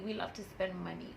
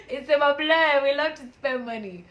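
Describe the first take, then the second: First: Said in the usual way. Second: Louder, higher repeat of the line; laughing admission. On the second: Real, not acted. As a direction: own it with a big laughing push. Repeats after laughing, emphatic.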